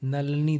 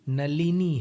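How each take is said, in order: First: The short i vowel after l is dropped. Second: A short i vowel is heard after l. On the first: The speaker calls it wrong. "असावधानी से नलनी निकल जाता मुंह से" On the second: The speaker calls it right. "नलनी नहीं है, नलिनी है। छोटी ई की मात्रा है"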